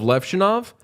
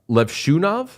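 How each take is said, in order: First: The middle syllable 'shoe' is unstressed. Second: The middle syllable 'shoe' is stressed. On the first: This is how most people say it. "instead of Levshunov" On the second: Someone else said it this way. "Kevin Weeks kept saying uh, Levshunov"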